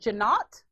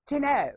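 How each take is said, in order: First: The final T is pronounced. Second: The final T is silent. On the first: The speaker calls it wrong. "close. You know, uh, the T is silent" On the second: The speaker calls it right. "There you go. That's the one"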